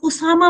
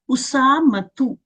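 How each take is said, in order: First: The name ends in a plain 'a' sound. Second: The name ends in a 'tu' sound. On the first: The speaker calls it wrong. "अब उसामा मत बोलिएगा क्योंकि फिर तो ता गायब हो गई ना" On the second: The speaker calls it right. "उसामतु इतना बोलेंगी आप"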